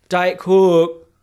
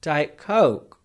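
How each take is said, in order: First: Loud, high broad Yorkshire "Coke"; insistent repeat with the Yorkshire vowel; Yorkshire accent. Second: Put-on diluted London accent. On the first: Retold or imitated. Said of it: "where I don't have to repeat myself". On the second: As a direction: give in and say "Coke" in a London accent. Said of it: "I'm evolving".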